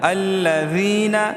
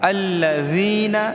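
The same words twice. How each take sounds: The two takes are said the same way.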